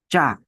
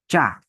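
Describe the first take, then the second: The two takes are said the same way.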